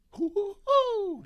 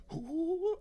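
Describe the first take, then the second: First: Very high, slow, loud cartoon hoot; Tigger hoot. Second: High hoot that falls short; failed Tigger hoot. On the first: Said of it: "That was terrible". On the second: Pretend. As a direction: try the cartoon tiger hoot and miss. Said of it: "I can't do it".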